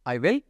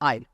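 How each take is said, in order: First: Both words are said in full, two syllables. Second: The words are merged into one short syllable. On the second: "contraction form में I'll बोला जाता है"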